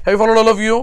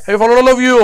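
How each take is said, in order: First: Said in the usual way. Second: Raised, more forceful call to the class; insistent check. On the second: Real, not acted. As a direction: press the whole class for an answer. Repeats check, louder, for class response. (जोर देऊन विचारणे)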